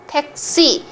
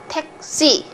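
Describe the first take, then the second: First: It is said with Korean pronunciation, tense s. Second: The same.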